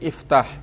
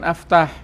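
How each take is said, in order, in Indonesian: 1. Kata ini diawali dengan huruf vokal 'i'. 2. Kata ini diawali dengan huruf vokal 'a'. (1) "hamzah yang di depan itu dikasrohkan" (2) "Bukan aftah"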